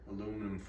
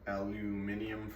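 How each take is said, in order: First: The word is said with four syllables. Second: The word is said with five syllables.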